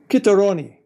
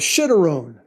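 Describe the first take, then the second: First: The word is said with an Italian-style pronunciation. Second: The word is said with an English-style pronunciation. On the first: "Italian pronunciation would probably be chitteroni" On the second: "what's known as a shitterone"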